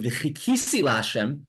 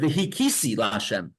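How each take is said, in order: First: The word starts with a throaty ch sound. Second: The word starts with a plain h sound. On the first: It means I put my hope in God. The speaker calls it right. "instead of the word saying the word v'chikisi la'Hashem, and I put my hope in Hashem" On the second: It means I will hit God. The speaker calls it wrong. "uses the word v'hikisi la'Hashem. I will, he's kisim, I will hit"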